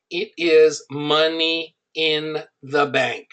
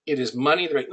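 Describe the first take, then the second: First: Slow, weighty emphasis on "is money in the bank"; slow emphatic. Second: Said in the usual way. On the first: Shown as a demonstration. Pitching his niches to the audience, slow and weighty. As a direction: lean on "is" and drag "it is money in the bank" out slowly. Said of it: "repeats key line for emphasis". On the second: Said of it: "repeats key line, plain".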